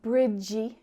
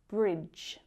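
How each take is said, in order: First: The word has an added final vowel syllable. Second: The word is said as a single syllable. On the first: The speaker calls it wrong. "it's not bridgey" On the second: The speaker calls it right. "just one syllable"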